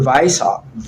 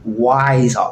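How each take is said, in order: First: The name begins with a V sound. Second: The name begins with a W sound. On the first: The speaker calls it right. "Weiss with the W in German, it sounds like a V" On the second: The speaker calls it wrong. "For those who say Weishaupt, you're not saying the German"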